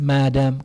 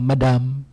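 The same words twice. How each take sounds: First: The stress is on the first syllable. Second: The stress is on the second syllable. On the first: The speaker calls it right. "the dictionary says the stress should fall on the first syllable" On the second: The speaker calls it wrong. "they usually baga madam"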